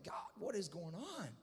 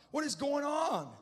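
First: Mildly tearful plea, re-enacted; a touch of acted sobbing; mock weeping. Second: High, loud, drawn-out cry of bewilderment; acted anguished outcry; crying out to God. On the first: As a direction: plead wearily, as if cried out. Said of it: "I'm just weeping and sobbing and crying". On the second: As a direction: shout the desperate question slowly upward. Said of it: "I'm just crying out".

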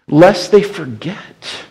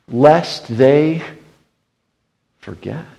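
First: Lest they forget, each word slow and weighty; slow emphatic refrain. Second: Said in the usual way. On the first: Shown as a demonstration. Preacher driving home the refrain to the congregation, slow and solemn. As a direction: lean on it slowly, like a solemn warning.

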